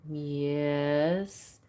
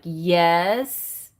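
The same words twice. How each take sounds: First: It is said in a plain, neutral way. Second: It is said in a cheeky, defiant way.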